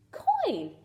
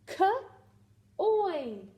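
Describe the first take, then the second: First: Said in the usual way. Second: Slow drawn-out coin; stretched blend. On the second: Shown as a demonstration. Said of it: "trade out my J for a C".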